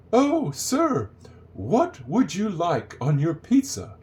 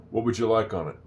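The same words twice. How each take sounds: First: High, slow, hammed-up polite waitress; mock a prim waitress, every word drawn out; overly proper waitress. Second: "What would you like on it" tossed off as "what wouldja like-on-it"; sloppy waitress speech. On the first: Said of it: "waitress is not gonna come up and say". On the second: Shown as a demonstration. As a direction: run "What would you like on it" together in an everyday voice. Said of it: "It's sloppy".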